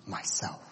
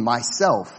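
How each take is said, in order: First: Soft unvoiced whisper of "Myself"; a whisper that seems to come from all around. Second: A touch louder, clear and glad; joyful proclamation of the lion's name; loud clear happy. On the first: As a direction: breathe the word "Myself" almost silently. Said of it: "whispered so softly". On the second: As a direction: ring it out gladly. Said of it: "loud and clear and happy". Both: A narrator's reading.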